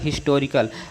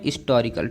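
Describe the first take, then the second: First: The word starts with a clear h sound. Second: The word starts with a vowel, no h sound. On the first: This is how modern grammarians read it. "पहला letter आपका हा है" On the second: This is how older grammarians read it. "एच को silent बना दिया"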